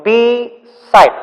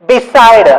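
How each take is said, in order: First: "Beside" as Be, clear pause, side; split into syllables. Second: Said in the usual way. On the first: Shown as a demonstration. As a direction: break "Beside" into two slow separate beats. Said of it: "how many syllables are coming". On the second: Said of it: "one sound here, two sound".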